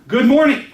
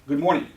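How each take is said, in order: First: It is said with somewhat higher energy. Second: It is said with moderate energy.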